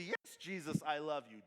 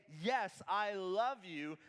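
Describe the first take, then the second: First: Tossed-off, self-satisfied "Yes, Jesus, I love you"; smug and easy. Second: Slow, earnest yes, I love you; mean every word of I love you; sincere. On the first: Complacent churchgoer answering Jesus glibly, smug and easy. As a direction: say it as if it costs nothing. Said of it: "Do not say it so smugly or easily". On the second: Believer answering Jesus in earnest, slow and sincere. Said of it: "Jesus says back to us". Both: Shown as a demonstration.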